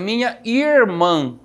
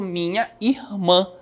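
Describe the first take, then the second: First: It is said in a countryside accent. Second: The 'ir' sound is drawn out. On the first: "Uma pessoa que é jamais ali do interior" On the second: "puxando o ir aí"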